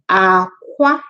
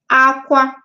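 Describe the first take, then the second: First: It has the tone pattern meaning egg. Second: It has the tone pattern meaning cry. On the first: It means egg. "pay attention to the way I say it because that's what will differentiate them. Aqua is egg" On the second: It means to cry. "aqua, aqua, cry"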